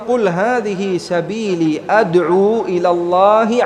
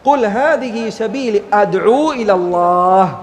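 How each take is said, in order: First: It runs on without stopping after 'ilallah'. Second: It comes to a full stop after 'ilallah'. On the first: The followers also invite to this path. "ഇങ്ങനെ കൂട്ടിച്ചേർത്തുകൊണ്ട് ഓതുക" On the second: The followers are firmly convinced in their faith. "അവിടെ നിർത്തുക"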